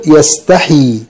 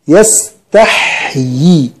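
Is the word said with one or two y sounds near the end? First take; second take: one; two. First: Only one y sound follows the h. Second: A y sound and a long ee follow the h. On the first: The speaker calls it wrong. "بعض الناس يقول يستحي" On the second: The speaker calls it right. "عند الوقف نقول يستحيي"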